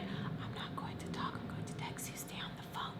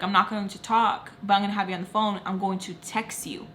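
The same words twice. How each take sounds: First: Hushed, fully whispered instructions; whispering. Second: Said in the usual way. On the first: Retold or imitated. Telling mom's friend she will text, whispering. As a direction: whisper it secretly into the phone. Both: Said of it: "I don't know why I whispered".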